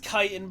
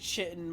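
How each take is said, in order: First: The word starts with a k sound. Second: The word starts with a ch sound. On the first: The speaker calls it right. "I know it's chitin" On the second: The speaker calls it wrong. "I've pronounced it chitin my whole life"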